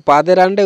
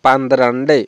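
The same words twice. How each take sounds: First: পাদের আন্ডে, first n left out; wrong pronunciation. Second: পান্দ্রান্ডে with n before the dr; careful model পান্দ্রান্ডে, pan-dran-dey; correct Malayalam pronunciation. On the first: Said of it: "কোনোভাবেই সঠিক না". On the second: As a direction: run ndr together in পান্দ্রান্ডে. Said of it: "এরকম করে কিন্তু আমাদের মালায়ালাম উচ্চারণটা হবে". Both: Shown as a demonstration.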